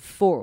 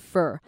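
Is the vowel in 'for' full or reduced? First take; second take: full; reduced. First: The word has a full, clear 'or' vowel. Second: The word has a reduced, weak 'ur' vowel. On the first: The speaker calls it wrong. "我们念快的时候不会把它念成 for" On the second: The speaker calls it right. "我们念成 fur"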